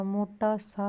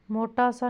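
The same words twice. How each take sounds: First: मोटा सा slowly, each word apart; separated words. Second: Said in the usual way. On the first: Shown as a demonstration. Teacher giving the accepted form, slow and separated. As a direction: space out मोटा and सा. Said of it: "होगा". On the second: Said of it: "नहीं होगा".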